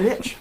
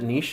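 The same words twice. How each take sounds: First: The word is given a folksy, redneck pronunciation. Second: The word is given its traditional pronunciation. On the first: It sounds down-home and unpretentious. "other times I like to be a redneck and call it niche" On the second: It appeals to a traditional crowd. "sometimes I do like to appeal to the traditional crowd that calls it niche"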